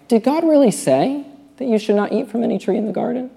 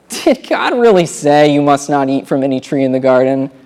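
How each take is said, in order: First: It is said in a puzzled, questioning tone. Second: It is said in a scornful, mocking tone.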